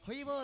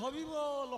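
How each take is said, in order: First: The r sound is dropped, leaving a vowel. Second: The r sound is replaced by a b sound. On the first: A small child whose teeth are just coming is speaking. "আদো আদো কথা" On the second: A toothless old person is speaking. "হরি উচ্চারণটা হয় না, হয় হবি"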